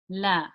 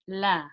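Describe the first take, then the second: Both takes have the same delivery.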